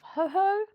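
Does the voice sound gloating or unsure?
unsure. It sounds surprised and unsure.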